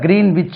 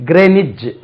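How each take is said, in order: First: The w is sounded, like green witch. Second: The w is silent, like grenij. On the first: The speaker calls it wrong. "ஆக்சுவலா கிரீன் விச் இல்லை" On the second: The speaker calls it right. "இது ரெண்டு உச்சரிப்பு இருக்கு"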